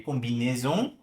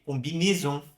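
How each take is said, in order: First: Combinaison with AI as an open E; open AI vowel. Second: Combinaison with AI as a closed é; northern French closed E in combinaison; closed AI vowel. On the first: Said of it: "prefiro pronunciar mais aberto". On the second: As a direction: tighten the middle vowel of combinaison. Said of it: "a pronúncia é mais fechada". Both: Shown as a demonstration.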